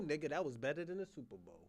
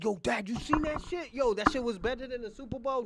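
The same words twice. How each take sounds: First: Said in the usual way. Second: Put-on high, loud kid hyped at dad; imagined excited kid. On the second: Kid raves to dad about the show, imagined excitement. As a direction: burst out like a thrilled kid. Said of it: "when your kids be like".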